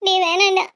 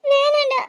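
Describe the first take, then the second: First: Tearful, lower pleading no; crying plea. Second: Said in the usual way. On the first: Acted. Sister tearfully begging her brother not to tell. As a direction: beg him to stop through tears.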